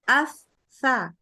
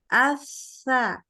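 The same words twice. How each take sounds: First: The airflow stops briefly during the consonant. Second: The airflow continues through the consonant. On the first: The speaker calls it wrong. "Jadi nggak boleh gini" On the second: The speaker calls it right. "Tapi nyambung"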